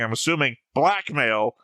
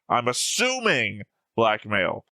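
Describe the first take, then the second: First: The word blackmail carries the stress. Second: The word assuming carries the stress. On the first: Blackmail is the point being claimed. The speaker calls it wrong. "not the word blackmail" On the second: It is only an assumption. The speaker calls it right. "I'm trying to emphasize the word assuming"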